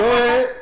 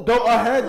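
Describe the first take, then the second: First: Mocking retort. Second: Mock drive-thru speaker. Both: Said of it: "you couldn't say the third syllable".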